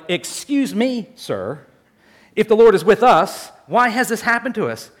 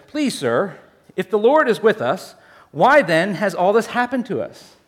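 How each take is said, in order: First: A touch of exasperated protest, not polite; indignant challenge. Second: Said in the usual way. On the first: Retold or imitated. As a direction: push back at the angel, half-offended. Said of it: "more like". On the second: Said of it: "Read it more like".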